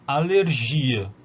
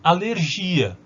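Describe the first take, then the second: First: Slow alergia with a stressed i; Portuguese alergia, slow. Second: Alergia with a stressed ia, as in Portuguese; alergia, stress falling on the i. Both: Shown as a demonstration. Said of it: "en portugués yo digo alergia".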